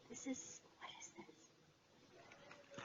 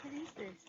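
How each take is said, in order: First: Slow, breathless whisper of wonder; hushed whisper. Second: Excited question. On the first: Finding something new in the box, she whispers slowly in awe. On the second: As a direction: burst out with it, curious and thrilled. Repeats the question out loud. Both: Real, not acted.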